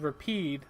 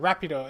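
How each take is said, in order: First: The name is said with English pronunciation. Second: The name is said with Japanese pronunciation. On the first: "His name in uh, English is Rapide" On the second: "Rapido is how I guess Yuri kind of says it"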